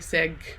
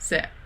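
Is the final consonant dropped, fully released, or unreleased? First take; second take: released; dropped. First: The final g is fully released and audible. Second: The final consonant is left off entirely. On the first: "don't say seg" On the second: "you don't say se"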